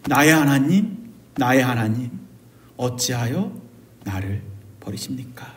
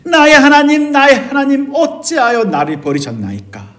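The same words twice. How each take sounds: First: Low, soft prayer fading to a whisper; hushed confession. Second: Desperate outcry. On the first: Those in darkness like Matthew confess to God, hushed confession. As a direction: confess it quietly, sinking into a whisper. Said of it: "그래서 이렇게 고백하죠". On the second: Preacher voices Matthew's despair to God, desperate outcry. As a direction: cry out to God, then let the question drop. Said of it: "라고 절규하고 외치는 마태의 감정을". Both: Acted.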